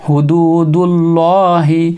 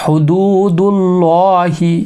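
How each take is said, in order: Both takes have the same delivery.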